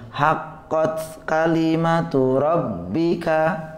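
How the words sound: The phrase is read smoothly joined together. It is the recommended way to recite. "maka berusaha disambung"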